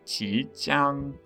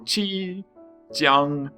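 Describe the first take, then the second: First: It is said with Mandarin rising and level tones. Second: It is said in an American accent without tones. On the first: The speaker calls it right. "attempt to uh, do the, the Chinese pronunciation" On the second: The speaker calls it wrong. "the terrible American pronunciation first"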